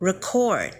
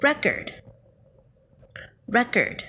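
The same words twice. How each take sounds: First: Record with the stress on the second syllable, re-CORD; verb stress re-CORD. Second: Record with the stress on the first syllable, RE-cord; noun stress RE-cord. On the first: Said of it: "ออกเสียงว่า record". (ออกเสียง record เน้นพยางค์ท้าย re-CORD) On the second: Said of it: "ถ้าคุณผู้ฟังออกเสียงว่า". (ออกเสียง record เน้นพยางค์แรก RE-cord) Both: Shown as a demonstration.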